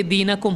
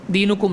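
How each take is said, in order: First: दीनकुम with an "a" vowel after the n, dee-na-kum; दीनकुम, middle vowel a short "a"; correct reading. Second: दीनुकुम with a "u" vowel after the n, dee-nu-kum; दीनुकुम, middle vowel a short "u"; mistaken reading. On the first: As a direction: say दीनकुम as "deenakum", not "deenukum". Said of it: "इसलिए दीनकुम होगा". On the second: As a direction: say दीनुकुम as "deenukum", the misreading. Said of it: "दीनुकुम नहीं". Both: Shown as a demonstration.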